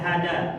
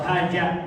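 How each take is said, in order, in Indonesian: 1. Huruf tengahnya bunyi d biasa. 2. Huruf tengahnya bunyi j. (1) "Jangan dibaca hada" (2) "atau haja"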